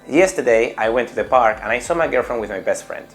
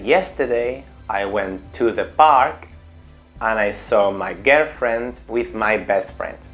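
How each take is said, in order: First: The sentence is said at a fast pace. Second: The sentence is said at a slower pace.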